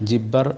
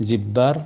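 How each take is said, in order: No difference in how they are said.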